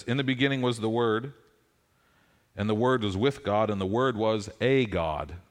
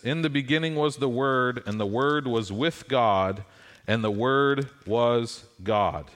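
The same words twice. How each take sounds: First: "a" stressed in "a God"; the altered reading, pointed. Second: Slowing on the Word was God; the true reading, weighty. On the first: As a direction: hit "a" in "the Word was a God". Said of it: "It says". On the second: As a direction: lean on "God" with a slow close. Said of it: "says this". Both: Shown as a demonstration.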